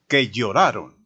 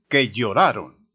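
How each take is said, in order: No difference in how they are said.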